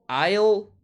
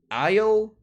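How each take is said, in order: The two takes are said the same way.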